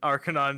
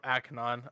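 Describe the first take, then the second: First: The name has an R sound after the first vowel. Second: The name has no R sound after the first vowel. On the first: The speaker calls it wrong. "Or Akanon. It's not Akanon, my bad" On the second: The speaker calls it right. "you just replace the R with another N, so Akanon"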